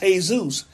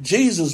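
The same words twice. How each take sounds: First: The name is said with Spanish pronunciation. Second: The name is said with English pronunciation. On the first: "but in Spanish, it's Jesus" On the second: "We pronounce it Jesus"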